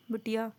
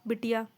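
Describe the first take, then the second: No difference in how they are said.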